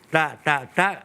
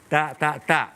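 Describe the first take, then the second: The two takes are said the same way.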